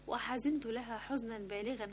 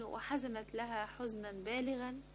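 First: وحزنت read "wa-hazintu", ending in -tu; وحزنت with i after z and final -tu; corrected verb ending. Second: وحزنت read "wa-hazanat", ending in -at; وحزنت with a-vowels and final -at; misread verb ending. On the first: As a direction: say وحزنت as first person, "hazintu". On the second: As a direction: say وحزنت as third person feminine, "hazanat". Misread verb, corrected in retake. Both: Real, not acted.

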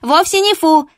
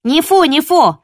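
First: High, loud ringing yap; indignant little dog yapping; yappy little dog. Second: High, loud chiming yap; second pup backs her up; yappy little dog. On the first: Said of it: "звонко тявкнула Чупа". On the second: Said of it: "поддержала Копа". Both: Acted.

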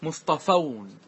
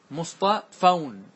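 First: Said in the usual way. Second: مصطفون drawn out syllable by syllable for students; stretched مصطفون for the class; slowly stretched مصطفون. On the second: Shown as a demonstration.

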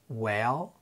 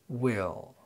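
First: "Well" with an open eh, voice lifting; light short e. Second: "will" with a distinct ih, falling; clear short i. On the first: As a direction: say "Well" with the e of "bed". (Well بكسرة خفيفة) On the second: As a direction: say "will" with the i of "sit". (will بكسرة ظاهرة) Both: Shown as a demonstration. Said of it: "وننطقهم بالترتيب".

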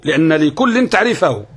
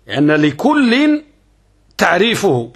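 First: Said in the usual way. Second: Teacher spells out لأن لكل word by word; slow stressed dictation. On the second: Shown as a demonstration. Teacher dictating the definition slowly to students.

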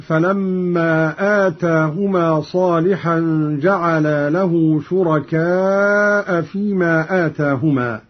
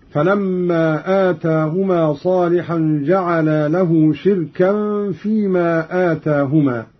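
First: Said in the usual way. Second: "شركا" as shirkan, with tanween and no hamza; Qalun's reading. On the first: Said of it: "قرأ قالون بكسر الشين". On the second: Shown as a demonstration. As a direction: recite "شركا" with i after sheen and a still ra. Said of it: "هكذا".

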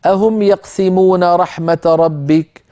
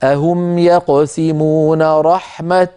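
First: Said in the usual way. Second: Slow, ending رحمة on a clear stopped t. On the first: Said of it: "فلو اضطررنا أو سئلنا كيف نقف". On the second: Shown as a demonstration. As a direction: stop on رحمة, landing on its ta. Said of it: "كيف نقف؟ نقول". (الوقف على رحمة بالتاء المبسوطة)

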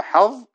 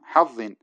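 First: "حظ" split as ḥaẓ, pause, ẓin; separated za. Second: "حظ" as ḥaẓẓin, the ظ held double; doubled za. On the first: Teacher shows the word's origin, separated za. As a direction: break "حظ" between its two ظ sounds. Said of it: "أصلها". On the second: Teacher gives the example word, doubled za. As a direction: say "حظ" with one long merged ظ. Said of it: "أصلها حظ". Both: Shown as a demonstration.

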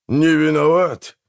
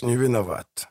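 First: Slow, higher indignant question; indignant echo. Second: Said in the usual way. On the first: A narrator's reading. Brother rejects the excuse of shared innocence, indignant. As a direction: echo не виноват back slowly as an incredulous question.

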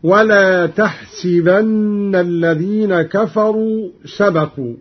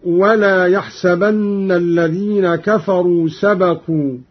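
First: تحسبن as tahsibanna; slow recitation, تحسبن starting t with si in the middle; taa and kasra. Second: Said in the usual way. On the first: Shown as a demonstration. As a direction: say tah-si-ban-na for تحسبن. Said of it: "بالتاء وكسر السين على الخطاب". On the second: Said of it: "قرأ قالون بالتاء وكسر السين".

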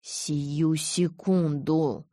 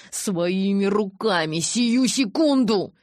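First: Very slow, clipped command; slow deliberate snap; barked order. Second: Hatred boiling over; rising rage. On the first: A narrator's reading. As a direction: bark each word down at him. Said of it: "рявкнул Эдвард". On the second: Acted. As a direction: spit it out in fury. Jacob rages at Edward.

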